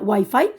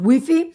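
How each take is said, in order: First: It is pronounced the original way. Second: It is pronounced the Spanish way. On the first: This is how it is really pronounced. "en realidad se llama, se pronuncia" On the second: This is how people in Spain say it.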